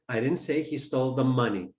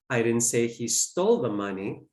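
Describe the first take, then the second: First: The word 'money' is stressed. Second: The word 'stole' is stressed. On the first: He may have stolen something other than money. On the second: He may have taken it some other way. "Maybe he borrowed it"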